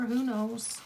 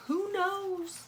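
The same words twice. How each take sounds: First: Said in the usual way. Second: Who knows in a high, lilting voice; high sing-song who knows. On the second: Real, not acted. Repeated in high voice.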